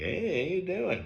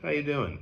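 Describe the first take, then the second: First: It is said in a friendly, chatty way. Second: It is said in a flat, curt way.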